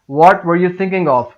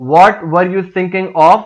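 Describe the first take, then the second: First: Said in the usual way. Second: Louder, sharper "What were you thinking of?"; scolding. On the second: Shown as a demonstration. Teacher scolding a worker who skipped the job, loud. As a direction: snap "What" at them like a harsh scolding. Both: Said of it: "Depending on the intonation".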